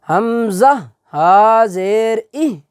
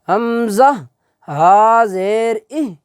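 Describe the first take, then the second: The two takes are said the same way.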